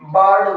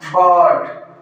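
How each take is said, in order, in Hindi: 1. स्वर छोटा और झटके से बोला जाता है। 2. स्वर को खींचकर लंबा बोला जाता है। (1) "हम क्या बोल देते हैं, बर्ड बोल देते हैं" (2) "ध्वनि हमें थोड़ी लंबी खींचनी है"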